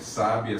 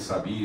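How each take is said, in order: First: The stress is on the first syllable. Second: The stress is on the middle syllable. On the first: "Conforme eu vou andando com a tônica" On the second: "Conforme eu vou andando com a tônica"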